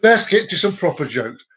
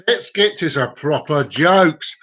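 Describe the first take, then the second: First: Said in the usual way. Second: Slow, stretched-out announcement; drawn-out announcement. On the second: Pretend. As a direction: draw out each word for show. Same line repeated in mock emphasis.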